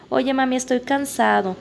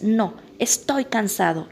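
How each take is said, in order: First: Lightly voiced child, a bit higher; playing the tired kid asking mom. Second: Slow, whiny imitation of a crying kid; hint of a child near tears; mock crying child. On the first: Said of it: "Que les dicen". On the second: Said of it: "el niño ya llorando es".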